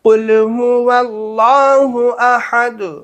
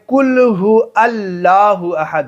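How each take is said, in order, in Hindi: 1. इसे 'allahu' से पहले 'w' की आवाज़ के साथ पढ़ा जाता है। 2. इसे 'allahu' से पहले 'w' की आवाज़ के बिना पढ़ा जाता है। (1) "वल्लाह पढ़ना है, अल्लाह नहीं पढ़ना है, वाव से पढ़ना है" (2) "लोग यहाँ पे क्या पढ़ते हैं? ... वाव को नहीं पढ़ते हैं"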